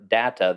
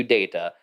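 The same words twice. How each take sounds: First: Data as DAT-uh; data, first vowel as in hat; short-a data. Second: Data as DAY-tuh; data, first syllable rhyming with say; long-a data. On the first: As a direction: say data with the a of cat. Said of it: "more people seem to prefer". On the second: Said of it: "than they do data". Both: Shown as a demonstration.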